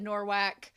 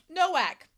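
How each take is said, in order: First: The first syllable has an r sound, like nor. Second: The first syllable has no r sound, like no. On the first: The speaker calls it wrong. "I said Norwalk" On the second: The speaker calls it right. "I know that I meant Nowak"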